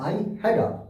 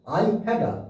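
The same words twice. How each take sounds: The two takes are said the same way.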